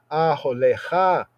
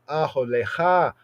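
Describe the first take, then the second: Both takes have the same delivery.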